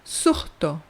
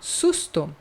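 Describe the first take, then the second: First: The s before the t sounds like an h. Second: The s before the t is clearly hissed. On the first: "as pessoas dizem surto" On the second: "em vez de falar susto"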